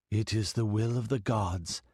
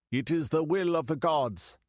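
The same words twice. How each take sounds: First: A cool, remote oracle voice, lightly voiced; cold, detached goddess. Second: Higher, ringing, leaning on will; exalted priest. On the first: The girl posing as a goddess speaks to the priests, cold and detached. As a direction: hold each word at a distance, impersonal. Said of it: "it seemed cold, detached, impersonal". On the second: The high priest repeats the goddess's decree, exalted and ringing. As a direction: proclaim it to the faithful. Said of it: "he cried in an exalted voice". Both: A narrator's reading.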